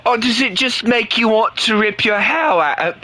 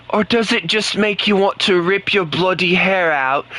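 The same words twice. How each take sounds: First: Higher mock British accent. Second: Mock British accent, bloody added for flavour. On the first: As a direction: tease Chris in a put-on British accent. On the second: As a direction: lay the British on thicker with bloody. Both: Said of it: "speak the British language".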